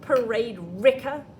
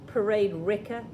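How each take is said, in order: First: It is said with lively expression. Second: It is said in a flat, boring way.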